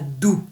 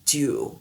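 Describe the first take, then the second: First: The word has a firm, French-style D. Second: The word has a soft, English-style D. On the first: The speaker calls it wrong. "Ce n'est pas doux" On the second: The speaker calls it right. "c'est dew"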